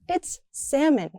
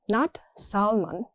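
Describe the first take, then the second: First: No L sound is pronounced in the word. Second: An L sound is pronounced in the word. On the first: The speaker calls it right. "The L doesn't exist in speech" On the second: The speaker calls it wrong.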